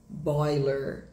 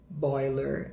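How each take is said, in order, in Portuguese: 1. É falado com sotaque do inglês americano. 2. É falado com sotaque do inglês americano.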